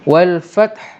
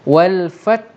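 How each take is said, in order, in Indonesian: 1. Kata itu berakhir dengan h berhembus yang terdengar. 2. Kata itu berakhir dengan t tanpa hembusan. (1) "macam ada hembusan" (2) "sampai dekat ta betul"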